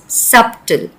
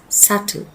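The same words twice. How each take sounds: First: The middle consonant is pronounced. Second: The middle consonant is left silent. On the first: The speaker calls it wrong. "We never pronounce the word as subtle" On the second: The speaker calls it right. "the P is supposed to be silent"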